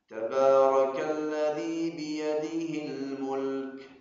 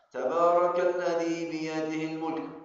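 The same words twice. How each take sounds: First: The L in mulk is pronounced clearly. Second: The L in mulk is swallowed, said quickly. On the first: The speaker calls it right. "harus menjelaskan huruf lam" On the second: The speaker calls it wrong. "Ini saya baca yang salah"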